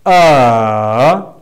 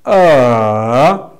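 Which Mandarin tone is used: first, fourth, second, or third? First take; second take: third; third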